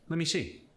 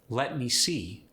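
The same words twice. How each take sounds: First: The words are shortened and run together. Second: Every word is pronounced fully.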